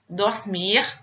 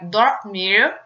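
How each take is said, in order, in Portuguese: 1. O R final é o R francês, gutural. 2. O R final é o R inglês. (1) "o R pronunciado como em francês" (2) "o R de, eh, do inglês, que seria o R caipira"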